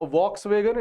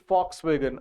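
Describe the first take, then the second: First: The word begins with a V sound. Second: The word begins with an F sound. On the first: The speaker calls it wrong. "It is not वॉक्स वैगन" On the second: The speaker calls it right. "It is फॉक्स वैगन"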